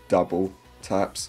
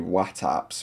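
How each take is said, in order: First: The name is said as 'double taps'. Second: The name is said as 'wattaps'. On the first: The speaker calls it right. "I've tried to pick the two best" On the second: The speaker calls it wrong. "I don't know about that one"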